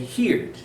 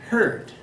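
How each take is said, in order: First: The vowel sounds like the vowel in 'here'. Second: The vowel sounds like the vowel in 'her'. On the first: The speaker calls it wrong. "Many people want to say heard. That's not correct" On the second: The speaker calls it right. "The correct pronunciation is heard"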